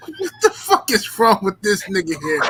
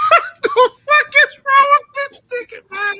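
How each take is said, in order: First: Said in the usual way. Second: High, loud, slow, through laughter; laughing disbelief. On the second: Real, not acted. Host laughing at the unhinged interview, loud laughing shout. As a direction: shout it while cracking up. Repeats question while laughing hard.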